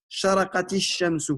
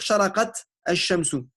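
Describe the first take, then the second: First: The two words are joined with a linking vowel. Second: The two words are said separately with a break. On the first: The speaker calls it right. "je dois le remplacer par une kasra" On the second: The speaker calls it wrong. "On ne doit pas dire sharaqat al-shamsu"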